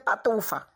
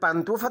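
First: The n sound in the first syllable is dropped. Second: The n sound in the first syllable is present. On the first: "omitem o N" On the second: "Para dizer pantufa"

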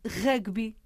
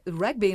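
First: It is said as three syllables, first one stressed. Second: It is said as the two-syllable English word. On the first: "devemos, dizê-la como ela deve ser dita" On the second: "em inglês é rugby"

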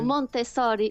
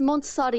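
First: The name is said with an Italian pronunciation. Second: The name is said with a Portuguese pronunciation. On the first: "Ou Montessori em italiano" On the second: "Disse Montessori em português"

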